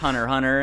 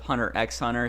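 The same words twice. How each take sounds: First: The middle x is left out, silent. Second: The middle x is spoken aloud. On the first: The speaker calls it right. "how you say it is just" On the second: The speaker calls it wrong. "instead of"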